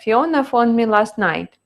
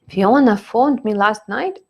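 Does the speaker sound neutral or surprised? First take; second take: neutral; surprised. First: It is said as a plain, neutral statement. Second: It is said as a surprised statement question. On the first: The speaker is simply giving news. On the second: The speaker finds the news unexpected.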